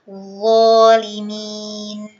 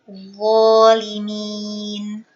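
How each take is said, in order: The two takes are said the same way.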